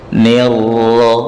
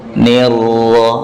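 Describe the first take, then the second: No difference in how they are said.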